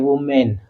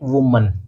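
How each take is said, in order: First: The second syllable ends with a full 'men' sound. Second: The second syllable ends with a reduced 'mun' sound. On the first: The speaker calls it wrong. "ये वूमेन नहीं होता है" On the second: The speaker calls it right. "इसका जब उच्चारण करेंगे तो क्या होगा ये? वूमन"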